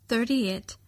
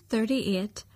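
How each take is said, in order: The two takes are said the same way.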